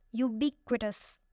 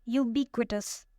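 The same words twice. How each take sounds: First: "Ubiquitous" slowly, with weight on BIQ; stress on second syllable. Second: Said in the usual way. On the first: Shown as a demonstration. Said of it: "the stress is on the second one". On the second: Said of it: "Our fourth word is ubiquitous".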